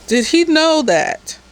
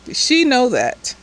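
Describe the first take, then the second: First: Said in the usual way. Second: "she" leaned on as the fix for "he"; stress on she. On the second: Real, not acted. Recapping the show, fixing the pronoun with stress on "she". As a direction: correct yourself by hitting "she".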